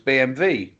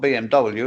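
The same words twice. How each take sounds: First: The W is said with a V sound. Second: The W is said with a W sound. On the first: The speaker calls it right. "Germans pronounce W as a V" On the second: The speaker calls it wrong. "It's not B M W at all"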